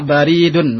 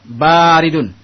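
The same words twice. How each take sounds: First: The first vowel is short. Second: The first vowel is long. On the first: The meaning changes. The speaker calls it wrong. "jangan salah dibaca baridun" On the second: It means cold. The speaker calls it right. "Kalimat ba yang panjang"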